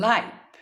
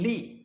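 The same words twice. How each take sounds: First: LIVE with a long eye vowel; LIVE rhyming with five; adjective pronunciation. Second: LIVE with an ee-like short i; LIVE rhyming with give; verb pronunciation. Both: Shown as a demonstration. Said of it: "pronunciation will be".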